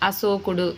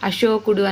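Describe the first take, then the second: First: The middle consonant is an s sound. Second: The middle consonant is a sh sound. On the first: The speaker calls it wrong. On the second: The speaker calls it right.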